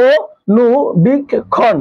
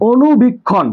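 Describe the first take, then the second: First: অনুবীক্ষণ stretched out very slowly, each syllable drawn apart. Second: Said in the usual way. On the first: Shown as a demonstration. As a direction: draw out অনুবীক্ষণ slowly for the pupils. (অনুবীক্ষণ খুব ধীরে, প্রতিটি অক্ষর টেনে টেনে) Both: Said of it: "একটু ভাঙার চেষ্টা করি".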